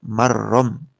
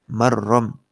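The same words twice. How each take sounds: The two takes are said the same way.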